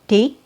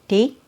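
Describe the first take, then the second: Both takes have the same delivery.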